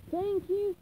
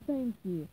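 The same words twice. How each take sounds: First: Higher, louder thank you; beaming at customers, pitched up; eager thanks. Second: Said in the usual way. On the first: Acted. Krabs thanking departing customers.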